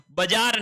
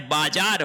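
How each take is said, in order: First: बाजार with short first vowel, "ba-jaar"; wrong pronunciation. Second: बाजार with long first vowel, "baa-jaar"; correct pronunciation. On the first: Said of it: "बाजार नहीं होता है". (बाजार का पहला स्वर छोटा "ब") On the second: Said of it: "बाजार होता है". (बाजार का पहला स्वर लंबा "बा") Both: Shown as a demonstration.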